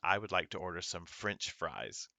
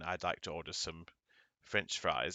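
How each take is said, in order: First: It has an American accent with hard R sounds. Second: It has an English accent with soft R sounds. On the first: "The American accent has a hard R" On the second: "Someone from England would say"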